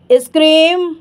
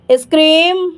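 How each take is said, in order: Both takes have the same delivery.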